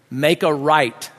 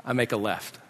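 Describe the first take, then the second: First: Slow, deliberate child's instruction, acted; measured driving command; giving directions. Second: Low, soft deadpan aside; understated, subdued contradiction; quiet defiance. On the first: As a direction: draw out each word of the order. Boy gives directions, dad echoes. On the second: Retold or imitated. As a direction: slip it in softly, disobeying the order. Dad contradicts the direction.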